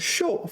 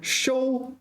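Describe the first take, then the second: First: The syllable has a falling tone. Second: The syllable does not have a falling tone. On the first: Something is done to you. "The second show, fourth tone" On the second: You do something to receive it. "the first one"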